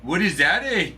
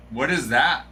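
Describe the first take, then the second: First: Higher, eh lifted up; light Canadian twang on eh; mock Canadian question; mock Canadian accent. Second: Said in the usual way. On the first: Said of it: "speaking a Canadian accent". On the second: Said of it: "asks plainly then repeats".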